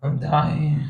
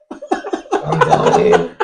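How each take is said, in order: First: Said in the usual way. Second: Much higher, laughing mock whine of a drunk friend; mock dying whine. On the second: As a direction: squeak it out like a friend sure he's dying. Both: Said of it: "starts going".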